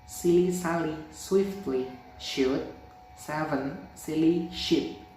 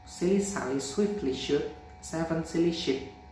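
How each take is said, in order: First: It is spoken at a slow speed. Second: It is spoken at a normal speed. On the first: "Slow mode" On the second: "Normal mode"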